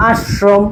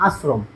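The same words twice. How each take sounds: First: আশ্রম broken as "ash... shrom"; wrong heavy sh. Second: আশ্রম low, soft and quick with thin "s", "asrom"; correct light s. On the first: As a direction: show the mistake: thick sh, split in আশ্রম. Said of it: "আমরা কি কখনো বলি". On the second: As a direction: drop আশ্রম softly with a light dental s. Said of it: "আমরা উচ্চারণ করি কিভাবে". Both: Shown as a demonstration.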